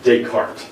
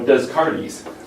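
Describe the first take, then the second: First: The name is said the established way. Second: The name is said as it is spelled. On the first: The speaker calls it right. "you have to pronounce correctly" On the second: The speaker calls it wrong. "that makes you sound stupid"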